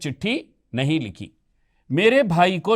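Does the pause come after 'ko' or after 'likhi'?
after likhi. A pause comes right after 'likhi'. The letter was not written, and the brother got a job. The speaker calls it right. "यहां विराम चिन्हों का प्रयोग उचित है"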